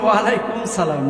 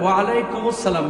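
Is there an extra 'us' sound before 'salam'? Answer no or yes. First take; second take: no; yes. First: Alaikum runs straight into salam with no extra sound. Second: An extra 'us' links alaikum to salam. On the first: The speaker calls it wrong. "আপনারা অনেকে বললেন" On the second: The speaker calls it right. "না, বলেন"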